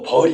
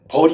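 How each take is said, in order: First: The vowel is held long. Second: The vowel is held short. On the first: It means the insect, a bee. "긴 소리 벌" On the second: It means punishment. "먼저 짧은 벌은 죄와 벌하는 벌"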